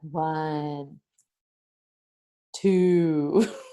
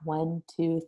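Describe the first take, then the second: First: The numbers are counted very slowly, drawn out. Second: The numbers are counted at a normal pace. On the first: "I would really count slowly" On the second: "initially I counted at a normal pace"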